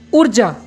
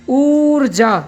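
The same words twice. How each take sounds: First: The first vowel is short. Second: The first vowel is held long. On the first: "छोटा ऊ के अनुकूल अगर हम शब्द बनाते हैं तो कैसे बोलेंगे?" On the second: "हम कुछ देर तक, कुछ सेकंड के लिए शब्द को उच्चारण करते समय ठहराव लेते हैं"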